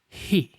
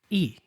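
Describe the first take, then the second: First: A breath of air comes before the vowel. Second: The word starts straight on the vowel. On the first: The speaker calls it right. "You need to include that little breath of air before the sound" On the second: The speaker calls it wrong. "You don't simply say E"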